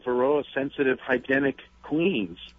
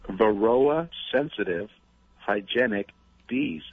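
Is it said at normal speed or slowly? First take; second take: normal speed; slowly. First: It is said at normal conversational speed. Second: It is said slowly and deliberately.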